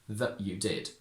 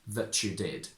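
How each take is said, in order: First: The t becomes a glottal stop before 'you'. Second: The t and 'you' merge into a ch sound. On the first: It is the traditional way of speaking. "going from traditional" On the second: It is the modern way of speaking. "to modern"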